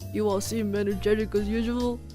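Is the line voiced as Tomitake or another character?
Tomitake. It is said in Tomitake's voice.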